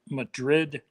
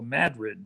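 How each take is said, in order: First: It is said the usual way for the Spanish city. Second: It is said the local Iowa town way. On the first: It names the city in Spain. "spelt just like Madrid, Spain" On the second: It names the Iowa town. "they call that here in Iowa Madrid"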